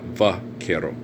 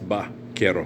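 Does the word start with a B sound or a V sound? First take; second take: V sound; B sound. First: The first sound is an English V. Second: The first sound is a soft B. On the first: The speaker calls it wrong. "not Vaquero. We don't say Va" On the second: The speaker calls it right. "it's pronounced Vaquero"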